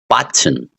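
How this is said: The middle consonant is a clear T sound. "They see they say T button"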